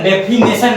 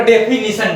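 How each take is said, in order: First: डेफिनेशन said "de-fi-NE-shan"; mispronunciation. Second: डेफिनेशन said "de-fi-ni-shan"; correct pronunciation. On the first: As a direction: third syllable of डेफिनेशन as "ne" instead of "ni". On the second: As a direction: third syllable of डेफिनेशन as "ni", not "ne". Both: Shown as a demonstration. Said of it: "डेफिनेशन नहीं".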